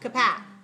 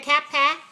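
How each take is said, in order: First: The first syllable has a reduced vowel. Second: The first syllable has a full vowel. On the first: The speaker calls it right. "The first syllable, k, k, unstressed" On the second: The speaker calls it wrong. "Do we want to say cap, pa"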